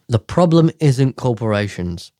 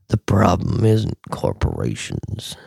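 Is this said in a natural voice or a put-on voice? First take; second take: natural; put-on. First: It is said in the speaker's ordinary voice. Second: It is said in an exaggerated put-on voice.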